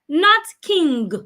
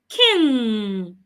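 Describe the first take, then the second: First: It ends with an audible hard g sound. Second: It ends in ng with no hard g. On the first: The speaker calls it wrong. "not king. There is no go there" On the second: The speaker calls it right.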